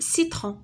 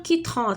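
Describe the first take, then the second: First: The word begins with an s sound. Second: The word begins with a k sound. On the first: The speaker calls it right. "تقول سيترون" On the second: The speaker calls it wrong. "ما غاديش تقول كيترون"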